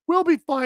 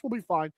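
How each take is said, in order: First: Said in the usual way. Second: "We'll be fine" said much softer and lower, under his breath; muttered reassurance. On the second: Pretend. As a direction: quietly reassure yourself. Repeats reassurance to himself.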